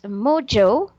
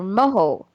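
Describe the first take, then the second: First: The middle consonant is a J sound. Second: The middle consonant is an H sound. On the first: The speaker calls it right. "it can be pronounced as mojo" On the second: The speaker calls it wrong. "or moho"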